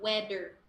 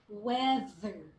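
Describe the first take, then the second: First: The middle consonant is a D sound. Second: The middle consonant is a vibrating TH. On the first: The speaker calls it wrong. "Don't interchange with the D sound, so it's not" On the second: The speaker calls it right. "the T H there is vibrating T H"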